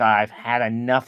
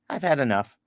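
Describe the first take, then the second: First: It is said forcefully, with strong feeling. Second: It is said calmly, without strong feeling. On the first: The speaker wants it to stop. "when we say it kind of with enthusiasm" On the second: The speaker is simply full. "it literally means that's enough"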